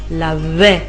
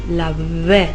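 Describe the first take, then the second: Both takes have the same delivery.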